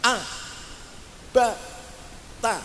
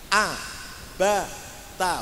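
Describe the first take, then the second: First: The syllables are separated by long pauses. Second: The syllables are short at an even pace. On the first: The speaker calls it wrong. "terlalu lamban, artinya ada jeda" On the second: The speaker calls it right.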